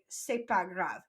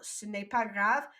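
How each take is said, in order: First: The word ne is dropped, said quickly. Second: The word ne is fully pronounced.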